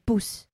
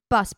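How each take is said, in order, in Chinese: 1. 按德语的方式发音。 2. 按英语的方式发音。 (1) "就是都只是换一个发音" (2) "公车是bus 变bus"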